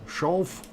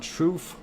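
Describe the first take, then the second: First: The vowel is a long O sound. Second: The vowel is not a long O sound. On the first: The speaker calls it right. "long O sound" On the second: The speaker calls it wrong. "Not Schoof"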